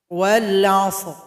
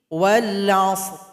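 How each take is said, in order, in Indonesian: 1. Kata itu diakhiri r polos yang tebal. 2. Kata itu diakhiri r polos yang tebal.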